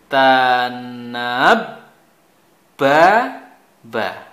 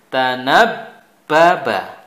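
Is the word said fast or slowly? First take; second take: slowly; fast. First: The word is said slowly, syllables apart. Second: The word is said quickly, syllables joined.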